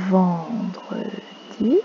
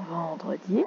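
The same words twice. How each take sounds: First: "Vendredi" stretched very slowly, every syllable held; drawn out. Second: Said in the usual way. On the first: Shown as a demonstration. Teacher modelling "Vendredi" slowly for the class. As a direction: draw out "Vendredi" so the children hear it. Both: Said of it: "repeats day for the class".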